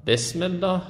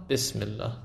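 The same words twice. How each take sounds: First: بسم الله high, as "besmellah" with "e"; Persian e vowel. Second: بسم الله as "bismillah" with a short "i"; short i vowel. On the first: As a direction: show the mistaken "bes" in بسم الله, pitched up. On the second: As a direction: correct بسم الله to a brief "bis". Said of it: "ای کوتاه". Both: Shown as a demonstration.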